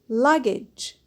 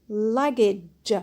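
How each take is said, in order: No difference in how they are said.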